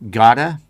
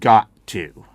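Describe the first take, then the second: First: The words are squeezed together into a short form. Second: Both words are said fully and clearly.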